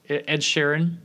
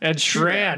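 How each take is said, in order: First: The last name has two full syllables. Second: The last name is squeezed into one syllable. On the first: The speaker calls it right. "[name] is what it is" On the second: The speaker calls it wrong. "It turned into Schran"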